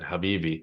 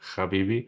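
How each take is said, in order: First: It starts with a breathy throat h sound. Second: It starts with a rasping kh sound. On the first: The speaker calls it right. "He pronounced it the way Arabs pronounce Habibi" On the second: The speaker calls it wrong. "They pronounce it with a K H"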